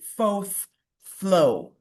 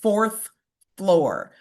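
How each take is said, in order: First: The R sounds are dropped, only hinted at. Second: Every R sound is clearly pronounced. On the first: The speaker is from a lower-class setting. "they would often drop the R from fourth and floor" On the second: The speaker is from an upper-class setting. "enunciate very clear, pronounce every R, rhotic"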